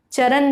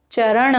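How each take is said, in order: First: चरण said as charan with plain n; tongue at the teeth for the n of चरण; dental n in चरण. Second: चरण with curled-back final n; retroflex n in चरण. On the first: Teacher names wrong form, चरण with dental n. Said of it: "चरण नहीं होता है". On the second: Teacher gives correct form, चरण with retroflex n. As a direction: curl the tongue back ending चरण. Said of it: "जबकि चरण होता है". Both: Shown as a demonstration.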